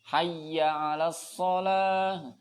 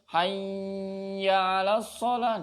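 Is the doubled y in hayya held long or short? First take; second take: short; long. First: The doubled y is pressed but not held. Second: The doubled y is held too long. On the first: The speaker calls it right. "cuma ditekan tok tapi tidak ditahan" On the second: The speaker calls it wrong. "kesuwen ... niki keliru"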